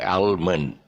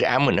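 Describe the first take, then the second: First: The l sound is pronounced. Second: The l sound is silent. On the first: The speaker calls it wrong. "No almond. But a very common mistake" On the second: The speaker calls it right. "The L is silent"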